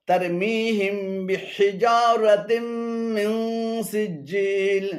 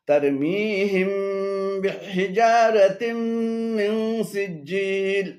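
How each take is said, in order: Both takes have the same delivery.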